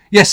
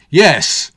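First: Hesitant, small "Yes,"; awkward. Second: "Yes," louder and firmer; bolder. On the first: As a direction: say "Yes," unsure and timid. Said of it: "said Chris awkwardly". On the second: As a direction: push out a bold "Yes,". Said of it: "added a bolder". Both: A narrator's reading.

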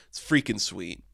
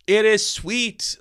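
First: Said in the usual way. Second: It is sweet, drawn out slowly and pitched high; slow emphatic restatement. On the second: Shown as a demonstration.

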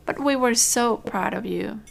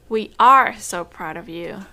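First: Said in the usual way. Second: Are pressed louder, proud now; stress on are. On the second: Real, not acted. Telling Joey she is still proud, stress on are. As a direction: lean on the word are to fix were. Correcting past to present tense.

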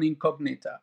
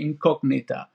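First: Incognita said the English way, in-COG-nee-ta; English pronunciation. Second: Incognita with Spanish vowels, in-kog-NEE-ta; Spanish pronunciation. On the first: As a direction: Incognita in a London English reading. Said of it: "Is that how you pronounce it?". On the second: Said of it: "in Spanish it will be Incognita". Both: Shown as a demonstration.

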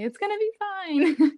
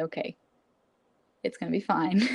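First: High, drawn-out sing-song reassurance; mock self-reassurance. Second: Understated, even self-soothing; self-reassurance. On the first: Student joking about staying calm, high slow mock reassurance. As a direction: stretch it out high, about to laugh. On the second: Retold or imitated. Student telling herself after a deep breath, calm reassurance. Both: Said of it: "take a deep breath and say".

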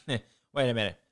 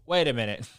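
First: Wait a minute through a real laugh. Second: Said in the usual way. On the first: Real, not acted.

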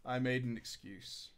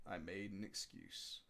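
First: Said in the usual way. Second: Much lower and softer, hushed; a guilty murmur to the audience; whispered aside. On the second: Shown as a demonstration. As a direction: drop to a sly confiding hush. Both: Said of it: "repeat for effect".

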